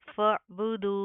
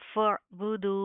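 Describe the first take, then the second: First: The word ends with a bare 'h' sound. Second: The word ends with a bare 'h' sound.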